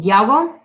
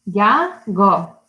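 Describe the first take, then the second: First: Said in the usual way. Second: "Yago" broken into Ya... go; syllable by syllable. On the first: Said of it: "count the syllables". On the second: Shown as a demonstration. Teacher counting syllables for children, "Yago" split in two. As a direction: say "Yago" as two separate beats. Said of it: "Two syllables".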